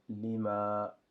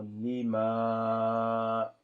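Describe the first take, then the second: First: Lima with the A kept short and not stretched. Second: Lima with the A held very long and loud. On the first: Teacher contrasting the short lima. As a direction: say lima quick and even. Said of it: "Par contre, ici". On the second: Teacher showing the stretched vowel. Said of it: "d'appuyer plus sur le, sur l'allongement". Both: Shown as a demonstration.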